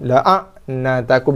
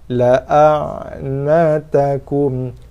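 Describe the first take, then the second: First: The ain sound is hard and forceful. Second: The ain sound is moderate with a slight trail. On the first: The speaker calls it wrong. "Jangan dikeraskan, jangan dijaharkan, jangan disyidahkan ain" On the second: The speaker calls it right. "Kita tawasud, sedang-sedang. La a, ada ekor sikit"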